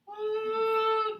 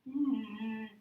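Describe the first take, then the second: First: The voice is tight and high. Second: The voice is loose and low. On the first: The vocal cords are tightened. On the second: The vocal cords are loosened.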